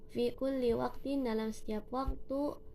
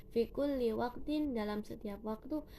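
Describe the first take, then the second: No difference in how they are said.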